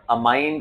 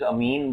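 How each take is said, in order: First: अमाइन with a long "eye" in the middle; pronunciation variant. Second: अमीन with a long "ee" in the middle; pronunciation variant. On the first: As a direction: say अमाइन as a-MINE, rhyming with "mine". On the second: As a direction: say अमीन as a-MEEN, rhyming with "seen". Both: Shown as a demonstration. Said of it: "depends how you pronounce".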